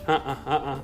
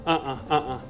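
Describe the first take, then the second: Both takes have the same delivery.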